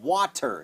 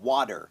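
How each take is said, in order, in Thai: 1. พยัญชนะตัวกลางเป็นเสียง T ชัดๆ 2. พยัญชนะตัวกลางเป็นเสียง D เบาๆ แบบแตะลิ้น (1) "อดัมไม่เคยพูดว่า" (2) "จะพูดเป็นดอเด็กนะครับเป็น D"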